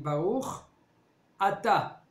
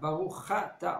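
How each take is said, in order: First: The second word starts cleanly with a vowel. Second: The ch sound runs into the second word. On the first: The speaker calls it right. "on dit Baruch Ata" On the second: The speaker calls it wrong. "on dit pas Baruch Chata"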